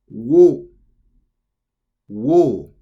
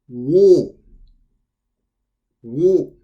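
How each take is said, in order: No difference in how they are said.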